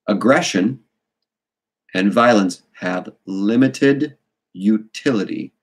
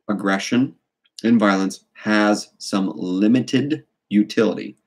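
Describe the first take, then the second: First: It is said slowly and deliberately. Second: It is said at normal speed.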